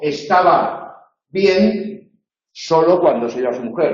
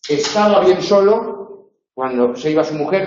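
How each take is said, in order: First: There is a pause after the word bien. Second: There is a pause after the word solo. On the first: He was fine only when his wife left. "es decir, únicamente cuando su mujer se iba, estaba bien" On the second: He was very lonely whenever his wife left. "donde bien tiene una función adverbial, estaba muy solo cuando se iba"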